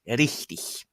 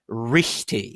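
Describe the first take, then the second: First: The R is a quick tongue tap. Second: The R is a bunched American-English R. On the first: "tapped at the front" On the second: "try not to say"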